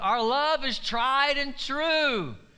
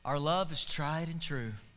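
First: It is said in a frustrated, louder tone. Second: It is said in a tender, romantic tone.

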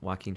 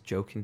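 First: The name is said as 'wah-keen'. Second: The name is said like the word 'joking'. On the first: The speaker calls it right. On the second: The speaker calls it wrong.

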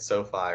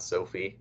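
First: The second syllable sounds like 'fye'. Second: The second syllable sounds like 'fee'. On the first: The speaker calls it right. "I believe that's how you say it" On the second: The speaker calls it wrong. "Not Sophie"

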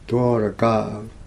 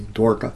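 First: The name is said with three syllables. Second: The name is said with two syllables. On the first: This is the original Sanskrit form. The speaker calls it right. "Let's say it right on Dwaraka" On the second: This is the Hindi form. The speaker calls it wrong. "Otherwise you speak Hindi"

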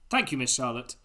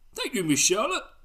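First: It is read in the reader's own voice. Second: It is read in a changed character voice.

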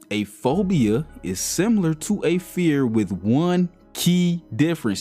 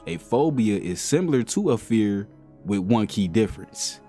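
First: It is read at a slower pace. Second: It is read at a quicker pace.

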